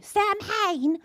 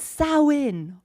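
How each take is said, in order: First: It is pronounced the way some Americans say it. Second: It is not pronounced the way Americans say it. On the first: The speaker calls it wrong. "some Americans say Samhain" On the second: The speaker calls it right. "it's Samhain. That's the pronunciation"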